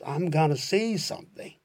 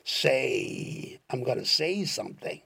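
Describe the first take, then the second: First: Said in the usual way. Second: "I'm gonna say something" drawn out very slowly, every word separate; slow demo. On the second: Shown as a demonstration. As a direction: spell it out slowly for the learner. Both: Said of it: "要模仿那个调子".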